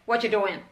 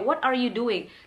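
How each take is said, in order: First: The words run together with are dropped. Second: Every word is said separately and clearly. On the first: A casual, idle question. "Kayak nggak ada space-nya gitu" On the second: The speaker really wants to know what is going on. "jadi lebih jelas gitu ya"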